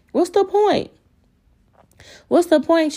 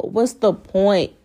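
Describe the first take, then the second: First: "What's the point?" thrown way up high in exasperation; worked up. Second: Said in the usual way. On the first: Real, not acted. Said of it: "I'm getting all, like, worked up".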